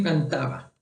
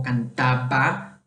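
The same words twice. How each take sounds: First: "cantaba" with a light, barely closed B; soft B. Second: "cantaba" with a hard, fully stopped B; strongly marked B. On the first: Teacher shows students her softer B in "cantaba". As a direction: let the B in "cantaba" glide softly. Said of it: "Es una B un poco más suave". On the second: Teacher shows students a hard B in "cantaba". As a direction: press the lips shut hard on the B in "cantaba". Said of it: "no es tan marcada como cantaba". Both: Shown as a demonstration.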